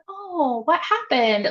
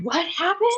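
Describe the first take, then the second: First: It sounds caring and concerned. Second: It sounds nosy and eager for gossip.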